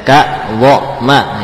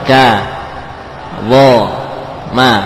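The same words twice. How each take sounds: First: Each syllable ends with a glottal catch. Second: Each syllable is released without a catch. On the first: The speaker calls it wrong. "contoh yang keliru dari saya" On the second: The speaker calls it right. "Ka lepas saja"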